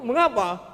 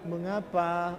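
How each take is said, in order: First: It is asked as an indignant protest. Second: It is asked in a calm, mild way.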